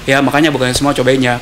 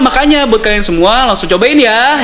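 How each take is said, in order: First: It is said with flat, unvaried intonation. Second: It is said with lively, varied intonation. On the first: The speaker calls it wrong. "Nggak kayak cuman" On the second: The speaker calls it right. "Yang gitu-gitu kan berarti kan ada intonasinya"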